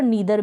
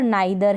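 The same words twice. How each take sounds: First: नीदर opening with a long "nee"; नीदर with a long ee in the first syllable; "ee" pronunciation. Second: नाइदर opening with "nye", as in "eye"; नाइदर with a diphthong in the first syllable; "eye" pronunciation. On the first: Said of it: "और नीदर भी". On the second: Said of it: "आई के रूप में भी". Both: Shown as a demonstration.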